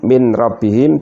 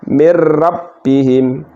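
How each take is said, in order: First: The n is pronounced clearly before the r. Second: The n merges fully into the following r.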